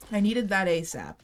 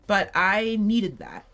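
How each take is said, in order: First: Said in the usual way. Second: "needed" drawn out slow and leaned on, falling; stress on needed. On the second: Real, not acted. Gamer insisting she "needed" that item. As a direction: land hard on "needed", take it slow.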